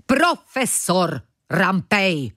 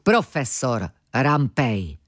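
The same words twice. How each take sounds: First: Slow, raised-pitch indignant correction; indignant shriek. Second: Slow, affronted correction of a title; offended correction. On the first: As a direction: draw the title out in a mild shriek. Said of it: "zaječel muž". (pohoršené, protažené zaječení) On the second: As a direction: correct him slowly, with mild offence. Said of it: "opravil ho dotčeně muž". (dotčená, pomalá oprava) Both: A narrator's reading.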